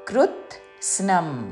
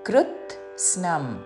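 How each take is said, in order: No difference in how they are said.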